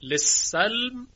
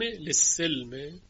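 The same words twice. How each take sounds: First: لسلم drawn out slowly, lisalm; slow demo. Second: لسلم said slowly as lisilm, with a kasra on the sin. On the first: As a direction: enunciate لسلم syllable by syllable. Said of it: "کلمهٔ سلم". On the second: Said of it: "یعنی به کسر سین". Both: Shown as a demonstration.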